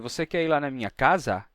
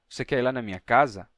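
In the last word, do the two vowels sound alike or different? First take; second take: alike; different. First: Both vowels in the last word sound the same. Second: The last word's second vowel is weaker than its first. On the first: The speaker calls it wrong. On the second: The speaker calls it right.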